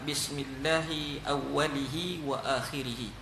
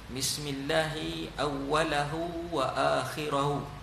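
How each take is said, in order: First: The word endings use the vowel i. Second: The word endings use the vowel a. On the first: "Yang ketiga" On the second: "baris atas"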